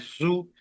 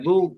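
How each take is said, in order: First: The first consonant is harsh, with a whistling hiss. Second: The first consonant is soft, without a hiss. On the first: The speaker calls it wrong. "जा की तरह पढ़ रहे हैं" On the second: The speaker calls it right. "अब ऐसे पढ़ना है जू, ऐसे।"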